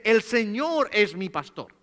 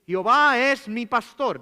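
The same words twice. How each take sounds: First: "Señor" stressed in a slow, firm read; modern Bible wording. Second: "Jehová" stressed, slow and louder; old Bible wording. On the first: Preacher contrasting modern versions, slowly stressing "Señor". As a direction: lean on "El Señor es mi pastor" as the modern reading. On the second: Preacher quoting the old Reina Valera, stressing "Jehová". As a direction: lean on "Jehová es mi pastor" as the old reading. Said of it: "va a decir". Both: Shown as a demonstration.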